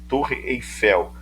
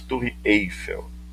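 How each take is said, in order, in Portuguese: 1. A sílaba tônica é a última. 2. A sílaba tônica é a primeira. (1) "aqui se fala" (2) "nada de"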